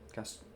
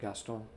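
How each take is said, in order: First: The name is said with an English pronunciation. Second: The name is said with a French pronunciation. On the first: "Is that how you pronounce it in English?" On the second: "I just know it the French way"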